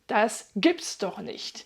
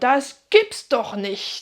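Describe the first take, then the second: First: The phrase is said plainly, without extra emphasis. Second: The phrase is said with strong, forceful emphasis.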